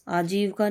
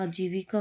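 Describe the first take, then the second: First: आजीविका as aa-jeev-ka, dropping 'i'; mispronounced आजीविका. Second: Said in the usual way. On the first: Shown as a demonstration. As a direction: say आजीविका without the 'i' after v. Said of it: "आजीविका नहीं होता". (आजीविका को 'आजीवका' बोलें) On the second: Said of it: "आजीविका होता है".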